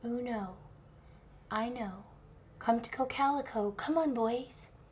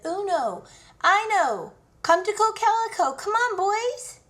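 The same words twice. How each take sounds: First: The call is said at a quieter volume. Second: The call is said at a louder volume.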